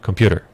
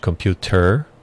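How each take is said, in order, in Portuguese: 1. É dito rapidamente, com um som parecido com d. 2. É dito devagar, com um som de t claro. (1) "você poderia falar rapidamente computer. Ou seja, como se um D estivesse ali" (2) "que você poderia falar de uma forma devagar para pronunciá-la certa"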